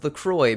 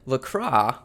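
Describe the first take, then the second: First: The name is said like the American drink brand. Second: The name is said with a French pronunciation. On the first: "I used to call this LaCroix because we have a drink here" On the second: "as the French would say"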